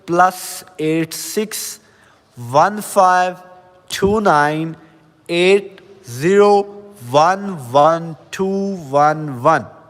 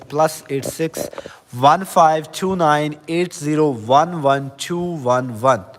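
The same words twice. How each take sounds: First: The number is read a little more slowly. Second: The number is read at normal speed.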